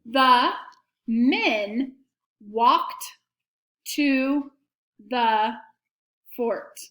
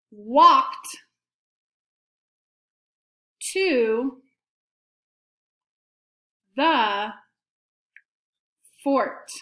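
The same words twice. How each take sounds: First: Each word set apart by a short pause; dictation, word by word. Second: Very slow, long pauses between words; slow dictation. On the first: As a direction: dictate it clearly, one word at a time. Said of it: "here's the sentence". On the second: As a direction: give pupils time to write after each word. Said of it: "say it again slowly". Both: Shown as a demonstration.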